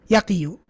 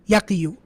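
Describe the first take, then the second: First: The word ends with a full '-yu' syllable. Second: The same.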